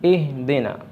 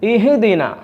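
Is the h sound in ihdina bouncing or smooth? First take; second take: smooth; bouncing. First: The h sound is moderate without any bounce. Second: The h sound has an echoing, bouncing vibration. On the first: The speaker calls it right. "മിതമായ നിരക്ക്" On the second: The speaker calls it wrong. "ഹാഇൻ്റെ ശബ്ദം ഖൽഖലത്തായി വന്നു, ഒരു പ്രകമ്പനം കൊണ്ടുകൊണ്ട്"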